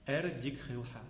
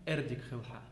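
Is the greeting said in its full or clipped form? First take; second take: Clipped; Clipped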